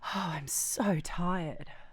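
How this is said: It is said while breathing out, breathily.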